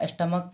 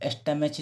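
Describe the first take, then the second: First: "स्टमक" ending in a hard k; correct pronunciation. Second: "स्टमच" ending in ch; mistaken spelling pronunciation. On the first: Teacher showing learners how to read stomach, "स्टमक" with k. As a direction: say "स्टमक" with a final k sound. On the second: Teacher warning learners off a misreading, "स्टमच" with final ch. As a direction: say "स्टमच" with a ch as spelt. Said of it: "इसे स्टमच नहीं पढ़ना है". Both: Shown as a demonstration.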